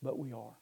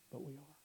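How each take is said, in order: First: Said in the usual way. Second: Much softer, sober echo; quiet, regretful admission; hushed admission. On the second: Real, not acted. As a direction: let it sink to a near-murmur. Repeats it, sunk to hush.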